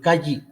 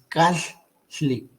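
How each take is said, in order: First: The middle consonant is a plain Spanish double L. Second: The middle consonant is split, not a plain L. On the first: The speaker calls it wrong. "o como se piensa en español, Calli, no es Calli" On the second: The speaker calls it right. "es Cajli"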